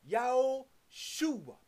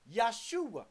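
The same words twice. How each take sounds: First: "Yahushua" drawn out slowly, accent on the SHU; four syllables in "Yahushua", leaning on the third, slowly; stress on third syllable. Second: "Yahshua" said in three syllables, Yah-shu-a; three-syllable pronunciation. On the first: Preacher showing listeners the accent, "Yahushua" stressed on SHU. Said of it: "The accent on the third syllable". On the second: Preacher contrasting the feminine name, "Yahshua" in three syllables. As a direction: say "Yahshua" short, with no middle syllable after Yah. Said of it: "which is three syllables". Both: Shown as a demonstration.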